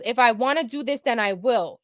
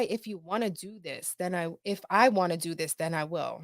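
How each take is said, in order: First: Said in the usual way. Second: Puzzled quiet repeat. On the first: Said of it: "She goes". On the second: Retold or imitated. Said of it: "that sounds weird".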